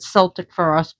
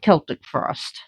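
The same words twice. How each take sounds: First: Celtic begins with a soft S sound. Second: Celtic begins with a hard K sound. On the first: The speaker calls it wrong. "People were calling it Celtic Frost" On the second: The speaker calls it right. "the C is actually a K"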